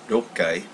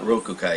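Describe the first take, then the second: First: The 'ku' is dropped and the consonant doubled. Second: The full syllable 'ku' is said in the middle. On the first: The speaker calls it right. "it's Rokai" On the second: The speaker calls it wrong. "it's not Rokukai"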